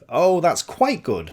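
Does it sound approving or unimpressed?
approving. It sounds warmly approving, meaning more than good.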